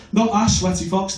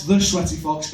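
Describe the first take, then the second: First: "a" picked out as the wrong word; stress on a. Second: "the" picked out as the right word; stress on the. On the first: Comic correcting his school nickname, stressing "a". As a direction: lean on "a" in "Not a Sweaty Fox". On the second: Comic insisting on his school nickname, stressing "the". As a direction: lean on "the" in "the Sweaty Fox". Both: Shown as a demonstration.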